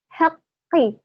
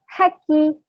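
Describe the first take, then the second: First: The middle consonant is held long and doubled. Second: The middle consonant is short and single. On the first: The speaker calls it right. "bil haqqi itu ada tasydidnya" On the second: The speaker calls it wrong. "Tidak ada tasydidnya di qafnya. Itu salah"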